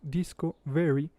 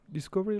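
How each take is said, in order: First: It is split into two separate words. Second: It is said as one unbroken word. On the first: It means very disco. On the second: It names a discovery.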